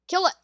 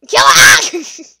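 First: Said in the usual way. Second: High loud yell of urgency; shout. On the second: Real, not acted. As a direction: scream the order. Urging to kill enemy.

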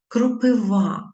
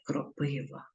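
First: "Кропива" stressed at the end, kro-py-VA; slow, loud, higher, landing on VA of "Кропива"; correct stress on last syllable. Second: "кропива" stressed in the middle, kro-PY-va; wrong stress on middle syllable. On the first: Teacher showing pupils the correct form, final-syllable stress on "Кропива". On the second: Teacher citing the mistake to avoid, middle-syllable stress on "кропива". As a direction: softly put the stress of "кропива" on PY. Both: Shown as a demonstration. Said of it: "а не кропива".

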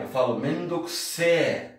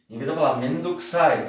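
First: "mendokuse" said slowly with an E ending; drawn-out slangy "mendokuse". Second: Said in the usual way. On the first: Shown as a demonstration. Teacher contrasts youthful "mendokuse" with "mendokusai".

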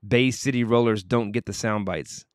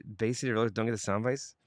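First: Said in the usual way. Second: Quicker reread, rising on "bites"; puzzled question. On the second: Real, not acted. Host rereading Jerry's comment, puzzled, rising to "bites". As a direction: turn "sound bites" up into a baffled question.

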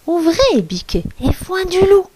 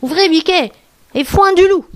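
First: Small, high voice of a wolf pretending; dainty fake goat voice; tiny little voice. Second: Lightly put-on higher voice of a mother goat; a hint of a false motherly voice; imitating the goat. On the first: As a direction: make your voice as small and high as possible. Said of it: "sa plus petite voix". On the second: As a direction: call out as a wolf mimicking a goat. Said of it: "en imitant la voix de la chèvre". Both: A narrator's reading.

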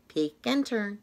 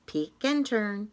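No difference in how they are said.

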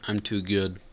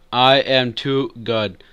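First: Said in the usual way. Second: "I am too good" slow, each word separated; emphatic boast. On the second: Real, not acted.

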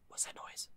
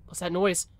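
First: Scared, breathless whisper in the dark. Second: Said in the usual way. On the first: Acted. Player alone on a dark road, whispering the question. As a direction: hush it like something might hear you.

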